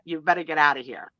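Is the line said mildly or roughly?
mildly. It is said in a mild, plain way.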